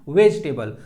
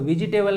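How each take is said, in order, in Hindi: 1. "vegetable" में बीच का e मौन है, इसलिए तीन सिलेबल बनते हैं। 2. "vegetable" में बीच का e बोला जाता है, इसलिए चार सिलेबल बनते हैं। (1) "ई जो होता है ऐसे साइलेंट होता है" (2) "वेजिटेबल नहीं होता है"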